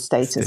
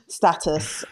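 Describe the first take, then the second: First: The word is said with a British pronunciation. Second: The word is said with an American pronunciation. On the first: "the British pronunciation is" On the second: "there's an American pronunciation"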